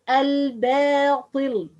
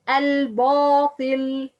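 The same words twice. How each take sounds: First: The ba is pronounced light and thin. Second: The ba is pronounced heavy and thick. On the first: The speaker calls it right. "but the right" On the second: The speaker calls it wrong. "no, it's wrong"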